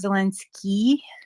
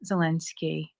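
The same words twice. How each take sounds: First: The final vowel is a long 'ee' sound. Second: The final vowel is a short 'ih' sound. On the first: The speaker calls it wrong. "So it's not Zelensky. ... more like a E" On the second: The speaker calls it right. "like the word hip"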